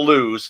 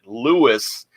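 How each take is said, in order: First: The name is said with one syllable. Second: The name is said with two syllables. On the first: This is how outsiders say it. The speaker calls it wrong. "instead of lose" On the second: This is how the locals say it. The speaker calls it right. "they pronounce it Lewis"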